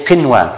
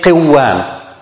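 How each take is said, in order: First: The n sound is heard clearly before w. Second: The n sound is merged away before w. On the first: The speaker calls it right. "We have to say qinwan" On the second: The speaker calls it wrong. "we can't say qiwan"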